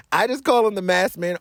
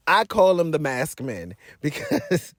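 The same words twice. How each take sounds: First: Said in the usual way. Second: Laughing. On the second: Real, not acted.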